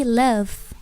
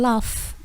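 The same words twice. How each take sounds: First: "love" with short uh and voiced v; correct pronunciation. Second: "love" with rounded o, like "lof"; wrong pronunciation. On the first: Teacher correcting the word for cinta, clear model pronunciation. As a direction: say "love" as luv, buzzing the v. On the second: Teacher showing the confusion with laugh, mispronounced demo. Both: Shown as a demonstration. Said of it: "cinta bukan love, tapi love".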